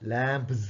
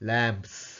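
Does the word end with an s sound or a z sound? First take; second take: z; s. First: The word ends with a buzzing z sound. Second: The word ends with a hissing s sound. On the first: The speaker calls it wrong. "ஜட் சத்தம் கொடுக்கறதில்ல" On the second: The speaker calls it right. "எஸ் சத்தம் தான் கொடுக்குறது"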